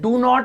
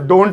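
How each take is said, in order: First: Not is said as a separate full word. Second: Not is contracted into one syllable. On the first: "डू नॉट अगर बोलना हो" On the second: "तो डोंट बोल दो"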